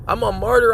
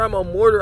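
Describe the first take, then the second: First: The last word begins with a 'mar' sound. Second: The last word begins with a 'mor' sound. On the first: The speaker calls it right. "it is martyr" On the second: The speaker calls it wrong. "You said mortar"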